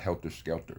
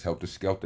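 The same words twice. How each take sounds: First: The words end with 'er' sounds. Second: The words end with 'ah' sounds. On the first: The speaker calls it wrong. "There are no E R's in any of those words" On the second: The speaker calls it right. "It's an A H or two of them in helter skelter"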